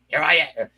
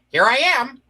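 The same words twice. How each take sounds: First: It is said in a Columbo-like voice. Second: It is said in a Get Smart-like voice.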